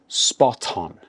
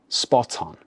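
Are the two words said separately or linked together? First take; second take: linked; linked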